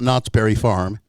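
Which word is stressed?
Knott's. The stress falls on the word Knott's. The speaker calls it wrong. "You say that wrong. Everybody says that wrong"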